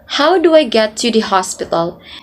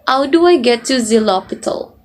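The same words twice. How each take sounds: First: The H sounds are pronounced normally. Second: The H sounds are dropped, French-style.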